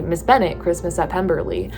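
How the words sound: It is said in a Californian accent.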